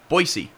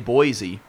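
First: The name is said the way locals say it. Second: The name is said the way outsiders say it. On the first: This is how people there say it. The speaker calls it right. "You know that's how they say it there" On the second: This is not how people there say it. The speaker calls it wrong. "They don't say Boise"

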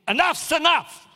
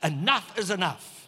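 First: The phrase is shouted loudly. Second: The phrase is said more quietly. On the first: "Shouldn't yell" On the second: "I'll say it quieter"

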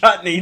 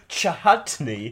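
First: The word is said without an H sound. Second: The word is said with an H sound. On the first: The speaker calls it right. "It's a chutney" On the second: The speaker calls it wrong. "You don't pronounce the H in chutney"

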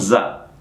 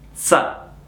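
First: The z sound is voiced, with buzzing. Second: The z sound is voiceless, like ts. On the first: The speaker calls it wrong. "Non za" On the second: The speaker calls it right. "Sempre quella Z di pizza"

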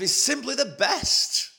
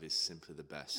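First: It is said with more energy and conviction. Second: It is said flatly with little energy. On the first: The speaker calls it right. "say it with a bit more conviction" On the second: The speaker calls it wrong. "That was very lackluster"

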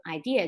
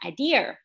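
First: It is said without an r-coloured ending. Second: It is said with a Beijing r-coloured ending.

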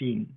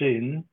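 First: The vowel is an 'ee' sound. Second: The vowel is not an 'ee' sound. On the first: This is the Korean-style pronunciation with an I sound. "instead of" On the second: This is the Ukrainian spelling with Y. "Y is for another sound. It's not for E"

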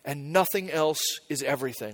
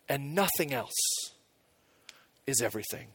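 First: It is said at a normal pace. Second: It is said more slowly.

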